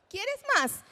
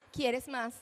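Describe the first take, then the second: First: Put-on high, lively offer to a child; bright, high-pitched question to a small child; adult offering. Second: Put-on child echoing. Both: Shown as a demonstration. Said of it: "tenemos también la ecolalia".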